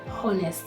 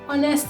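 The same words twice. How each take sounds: First: It begins with an audible H sound. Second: It begins with a vowel, the H silent. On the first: The speaker calls it wrong. "is not" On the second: The speaker calls it right. "do not have the sound"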